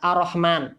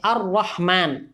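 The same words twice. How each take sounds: First: The r sound is short and single. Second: The r sound is held long and doubled. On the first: The speaker calls it wrong. "jadi tidak boleh dibaca" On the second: The speaker calls it right. "di atas ra"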